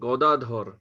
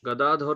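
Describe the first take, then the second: First: The first vowel is a rounded 'o' sound. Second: The first vowel is an open 'a' sound. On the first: The speaker calls it right. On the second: The speaker calls it wrong.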